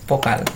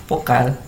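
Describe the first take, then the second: The two takes are said the same way.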